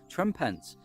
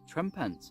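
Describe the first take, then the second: First: The two names are said slowly and separately. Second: The two names are said fast, run together.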